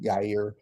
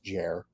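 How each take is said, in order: First: The name begins with a Y sound. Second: The name begins with a J sound. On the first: The speaker calls it right. "Is it Yair" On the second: The speaker calls it wrong. "Whoever calls you Jer is probably wrong"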